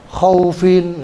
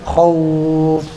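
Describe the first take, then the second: First: The word ends with an added 'in' syllable. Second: The word stops short on a bare 'f'. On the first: The speaker calls it wrong. "nggak boleh khaufin" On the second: The speaker calls it right. "tapi khauf"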